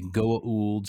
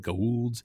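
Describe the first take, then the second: First: The name is said in its fuller, careful form. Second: The name is said in a clipped, shortened form. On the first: "They say Goa'ulds" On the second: "Some of them say Goulds"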